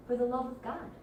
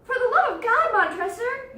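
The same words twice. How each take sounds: First: Said in the usual way. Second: High, loud desperate cry; desperate plea. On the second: Acted. Fortunato begging Montresor through the wall, desperate.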